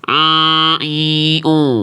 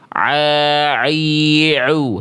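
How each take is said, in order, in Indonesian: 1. Bunyinya didorong naik ke hidung. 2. Bunyinya jelas dan dialirkan lewat mulut. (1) "nggak jadi" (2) "Tetap jelas bunyi ainnya"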